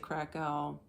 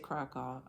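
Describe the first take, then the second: First: It is said with an American pronunciation. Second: It is said with a local Polish pronunciation. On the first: "Us Americans say Krakow" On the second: "they say Krakow"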